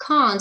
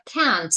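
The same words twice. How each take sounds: First: "can't" with a long back AH; British vowel in "can't", as in father. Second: "can't" with the American short A, as in cat; American vowel in "can't", front and open. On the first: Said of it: "that's why, um, in Britain". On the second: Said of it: "it's because of Americans". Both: Shown as a demonstration.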